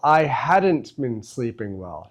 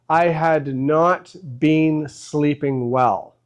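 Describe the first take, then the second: First: Had not is contracted into one word, hadn't. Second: Had not is said as two full words. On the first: "in speaking, we often use contractions" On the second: "instead of saying had not"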